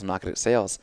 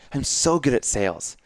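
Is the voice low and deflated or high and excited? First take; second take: low, deflated; high, excited. First: The voice is low and deflated. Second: The voice is higher and excited.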